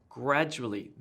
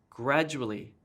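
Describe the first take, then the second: No difference in how they are said.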